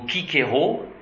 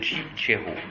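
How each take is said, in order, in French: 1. Le mot commence par un k dur. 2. Le mot commence par un son ch. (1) "Ou Kikero au lieu de" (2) "au lieu de Chichero"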